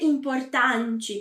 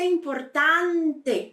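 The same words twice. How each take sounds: First: The final E is dropped. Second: The final E is fully pronounced. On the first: The speaker calls it wrong. "nada de dizer importante" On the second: The speaker calls it right. "Tem que ser importante, bem pronunciado"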